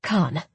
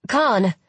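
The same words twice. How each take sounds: First: Said in the usual way. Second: Louder call after someone. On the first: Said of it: "I tried again". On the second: Acted. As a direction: call his name across the stairs. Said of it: "I called after him".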